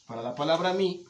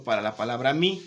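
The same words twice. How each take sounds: First: Mi lifted higher and held; stress on mi. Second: Said in the usual way. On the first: Shown as a demonstration. Teacher to students, lifting mi higher. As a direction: lean on mi for the class.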